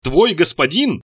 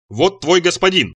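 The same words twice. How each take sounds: First: Very slow, word by word; laboriously slow, separated words; slow and distinct. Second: Slow, solemn presentation; grandly solemn and slow; solemn proclamation. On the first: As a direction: spell it out as if to a foreigner. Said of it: "медленно, раздельно произносил Ицхак, будто разговаривал с иностранцем или умалишённым". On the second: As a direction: announce it with ceremony, drawn out. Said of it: "торжественно изрёк Ицхак". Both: A narrator's reading.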